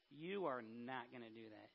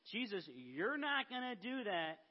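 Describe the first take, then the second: First: Low, soft, firm retold objection; Peter, quiet objection. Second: Mock scolding with a swooping pitch; Peter, mild scolding. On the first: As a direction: act out a hushed, firm refusal. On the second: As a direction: scold him lightly, as a retold quote. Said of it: "scold Jesus".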